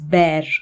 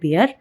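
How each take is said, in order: First: The vowel sounds like 'eh' in bare. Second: The vowel sounds like 'ee' in beer. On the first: The speaker calls it right. "It's பேர்" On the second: The speaker calls it wrong. "It's not பியர்"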